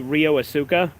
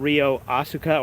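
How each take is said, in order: First: The name is said with an American pronunciation. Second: The name is said with a Japanese pronunciation. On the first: "super American when it comes to like pronouncing foreign names"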